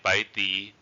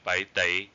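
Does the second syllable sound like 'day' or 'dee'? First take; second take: dee; day. First: The second syllable ends in an 'ee' vowel. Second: The second syllable ends in an 'ay' vowel. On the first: This is how some dialects say it. "in some dialects they would say 白 di" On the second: This is how other dialects say it. "in other dialects they would say 白 day"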